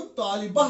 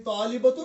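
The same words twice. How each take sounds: First: तालिबा closed with a breathed h; loud तालिबा as said at a stop; pausal h ending. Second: तालिबतुन with the -tun fully sounded; loud तालिबतुन, case ending kept; full -tun ending. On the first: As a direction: drop the -tun, end तालिबा on -ah. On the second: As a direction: pronounce तालिबतुन through to its -tun. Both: Shown as a demonstration. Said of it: "तालिबतुन तालिबा पढ़ते हैं".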